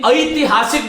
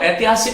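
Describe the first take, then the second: First: The word has a careful, precise pronunciation. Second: The word has an everyday, loose pronunciation. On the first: The speaker calls it right. "ऐतिहासिक बोलने का प्रयास करें" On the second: The speaker calls it wrong. "ऐतिहासिक नहीं"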